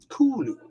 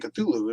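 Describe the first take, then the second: First: The name begins with a plain 'k' sound. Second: The name begins with a 'kth' consonant cluster. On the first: This is the author's original version. "the closest pronunciation that he said people could utter would be Kulu" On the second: This is the popular version people use. "the reason that we say Cthulhu"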